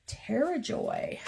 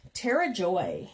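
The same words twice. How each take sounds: First: Slow, soft and higher; savoring the name. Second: Said in the usual way. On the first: Shown as a demonstration. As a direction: linger on the name fondly. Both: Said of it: "I like that two names".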